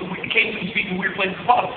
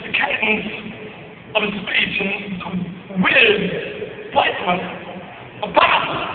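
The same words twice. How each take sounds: First: It flows with ordinary, natural phrasing and pauses. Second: It has pauses placed in odd, unexpected spots. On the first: "that doesn't sound weird, right?" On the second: "What about that?"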